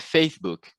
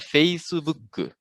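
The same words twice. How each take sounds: First: The word ends on the k with no vowel. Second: An extra u sound follows the final k. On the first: This is how English speakers say it. "em inglês, por exemplo, é Facebook" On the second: This is how Japanese speakers say it. "em japonês, esse preenchimento acontece com U"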